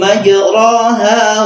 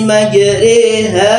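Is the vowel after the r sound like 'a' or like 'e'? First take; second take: a; e. First: The vowel after r sounds like a plain 'a'. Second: The vowel after r sounds like 'e'. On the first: The speaker calls it wrong. "dikira betul ro di fathah itu ro" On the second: The speaker calls it right. "mestinya dibaca e re"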